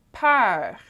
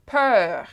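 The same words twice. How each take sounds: First: "peur" with an open eh-like eu before French R; open vowel, correct take. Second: "peur" mispronounced with the closed eu of "bleu"; closed vowel, wrong take. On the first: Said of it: "we said". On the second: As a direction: say "peur" with a tight "er"-like vowel as the counterexample. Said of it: "we didn't say". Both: Shown as a demonstration.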